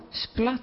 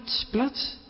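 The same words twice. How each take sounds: First: Softly voiced splat with a rising end; a quiet wave splashing on the boat; soft splash sound. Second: Whispered splat, soft and rising; whispered splash. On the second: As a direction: breathe the splat out like water hitting wood. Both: A narrator's reading. Storyteller imitates splashing waves.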